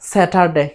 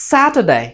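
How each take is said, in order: First: The first syllable is said without extra pressure. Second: The first syllable is said with strong pressure.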